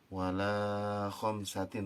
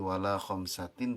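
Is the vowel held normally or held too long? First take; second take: too long; normal. First: The vowel is held for too long. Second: The vowel is held for a normal length. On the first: The speaker calls it wrong. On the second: The speaker calls it right.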